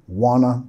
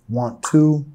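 First: The words blend quickly into one reduced word. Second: Both words are said fully and separately.

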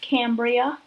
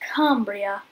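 First: It is said in the speaker's ordinary accent. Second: It is said in a put-on British accent.

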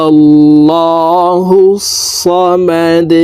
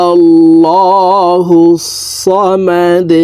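The two takes are said the same way.

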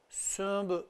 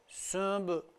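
Both takes have the same delivery.

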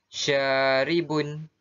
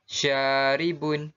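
No difference in how they are said.

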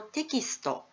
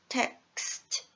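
First: Every sound after the first syllable is voiced. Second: The sounds after the first syllable are voiceless. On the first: "これ全部響きますので全部有声音" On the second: "クスッのところは響きません"

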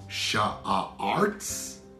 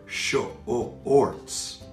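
First: The vowel is a drawn-out 'ar' sound. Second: The vowel is a drawn-out 'or' sound. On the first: The speaker calls it wrong. "Did you hear A-R" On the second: The speaker calls it right. "I heard the O-R sound for shorts"

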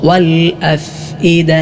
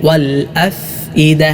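The two takes are said the same way.

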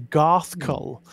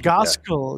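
First: The name has no hard Z sound in the middle. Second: The name has a hard Z sound in the middle. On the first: This is the way it is supposed to be said. The speaker calls it right. "apparently it is supposed to be Garthkull" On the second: This is the way it was said in childhood. The speaker calls it wrong. "with a hard Z"

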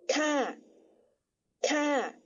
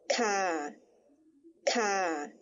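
First: The syllable is said on a falling tone. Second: The syllable is said on a low tone. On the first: "但使它念第三调，念作咔咔" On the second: "加上第二声调的调号，念作咔咔"

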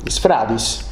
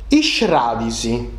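First: The s and f are said as separate sounds. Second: The s and f merge into a sh sound. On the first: This is how the words are written. "Deu scriu isfradis" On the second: This is how the words are actually spoken. "Ma sa pronuncia esti iscradisi"

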